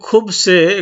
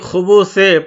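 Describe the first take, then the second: First: No vowel is sounded between the b and s. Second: A vowel is sounded between the b and s. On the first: The speaker calls it wrong. "সাকিন দিয়েও পাঠ করে তাও চলবে" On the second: The speaker calls it right. "এখানে আমি খুবুসে পাঠ করলাম"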